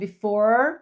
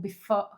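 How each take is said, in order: First: It has an American accent with a clear R. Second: It has an Australian accent with almost no R.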